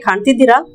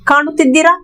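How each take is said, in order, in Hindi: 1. पहले अक्षर के बाद वाला स्वर छोड़ दिया जाता है। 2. पहले अक्षर के बाद वाला स्वर बोला जाता है।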